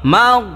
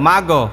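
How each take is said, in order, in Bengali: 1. শেষ ব্যঞ্জনটি প্রতিধ্বনি ছাড়াই পরিষ্কারভাবে থামে। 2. শেষ ব্যঞ্জনটি একটি অতিরিক্ত প্রতিধ্বনি-স্বরধ্বনি যোগ করে ঝাঁকি দিয়ে শেষ হয়।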